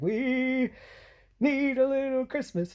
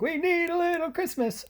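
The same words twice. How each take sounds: First: Sung, high, loud Christmas show tune with a drawn-out first note; sung, belt it out, holding the opening word; singing slowly. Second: Sung, very high, loud belted show tune; sung, belt it out higher and quicker; singing faster. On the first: Driver singing along a bumpy shortcut, high, loud and drawn out. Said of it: "going nice and slow". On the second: Driver speeding up on the shortcut, singing very high and loud. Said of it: "We gotta go faster". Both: Retold or imitated.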